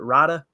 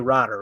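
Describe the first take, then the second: First: The word ends without an R sound. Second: The word ends with a hard R sound. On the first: The speaker calls it right. "Is it Rida?" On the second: The speaker calls it wrong. "You can't say Rider"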